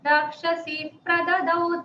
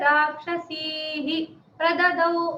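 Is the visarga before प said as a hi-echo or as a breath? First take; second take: breath; hi-echo. First: The visarga is a soft breath before the p. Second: The visarga is voiced as a full 'hi' syllable. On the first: The speaker calls it right. "ऐसा ही बोलेंगे" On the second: The speaker calls it wrong. "राक्षसी ही प्रददौ नहीं बोलते"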